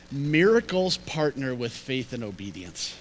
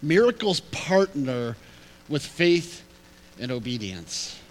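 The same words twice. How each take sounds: First: Said in the usual way. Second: "Miracles partner", "with faith", "and obedience" set apart by pauses; phrased out slowly. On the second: Shown as a demonstration. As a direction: spell out the lesson, slowly. Repeats the lesson word by word.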